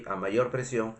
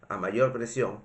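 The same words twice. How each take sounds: The two takes are said the same way.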